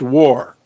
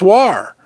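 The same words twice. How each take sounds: First: The vowel sounds like the one in 'wore'. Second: The vowel sounds like the one in 'far'. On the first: The speaker calls it right. "It's pronounced war. ... Like I wore my pants" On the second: The speaker calls it wrong. "I don't know why it's spelled W A R. To me, that's war"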